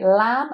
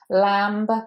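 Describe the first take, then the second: First: The word ends in an M with no B. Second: The word ends with an audible B sound. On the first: The speaker calls it right. "So here we just say lamb, and we forget that there's a B" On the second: The speaker calls it wrong. "you don't want to say lamb"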